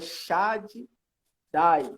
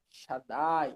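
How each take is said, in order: First: The word is split into two separate parts. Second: The word is joined, with a lengthened d. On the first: The speaker calls it wrong. "Falou Shad Dai" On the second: The speaker calls it right. "na hora da pronúncia não é para separar... duplica"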